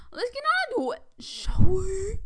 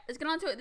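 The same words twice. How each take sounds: First: High, loud, sing-song announcer lilt; mock grand intro. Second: Said in the usual way. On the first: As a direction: ham it up like a showy host kicking off. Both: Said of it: "All right, let's get on to it".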